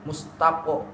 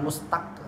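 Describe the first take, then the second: First: The final qaf ends with a heavy o-like echo. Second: The final qaf stops abruptly without an echo. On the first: The speaker calls it right. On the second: The speaker calls it wrong. "bukan mustak"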